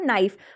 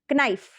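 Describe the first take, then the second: First: The word starts with an n sound, no k. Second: The word starts with a k sound before n. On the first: This is the modern pronunciation. "अभी आप क्यों बो, क्या बोलते हो" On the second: This is the sixteenth-century pronunciation. "But उस time पे क्या बोलते"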